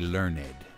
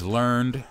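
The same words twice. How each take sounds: First: The word is said in an old, pious way. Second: The word is said in a plain modern way. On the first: The speaker calls it wrong. "the most pious of us will say learned" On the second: The speaker calls it right. "the word is learned"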